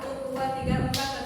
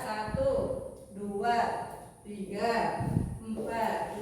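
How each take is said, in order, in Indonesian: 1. Hitungannya diucapkan dengan cepat. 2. Hitungannya diucapkan dengan lambat. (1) "Ada gerakan yang cepat" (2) "Itu lebih cepat yang pertama atau yang kedua? Pertama"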